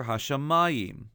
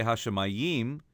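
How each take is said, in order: First: "Hashemayim" with stress on -ma-, before the last syllable; "Hashemayim" accented on its next-to-last syllable; correct penultimate stress. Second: "Hashemayim" with stress on the last syllable, -yim; "Hashemayim" misaccented on its final syllable; wrong final stress. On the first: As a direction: lean on the "ma" in "Hashemayim". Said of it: "but rather Hashemayim". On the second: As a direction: lean on the end of "Hashemayim". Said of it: "we don't say Hashemayim". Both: Shown as a demonstration.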